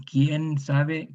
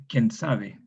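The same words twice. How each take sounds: First: Said in the usual way. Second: ¿Quién sabe? as ken sabe, ie reduced to e. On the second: Shown as a demonstration. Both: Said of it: "Eso es muy común en nuestro español".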